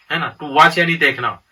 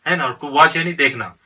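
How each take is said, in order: Both takes have the same delivery.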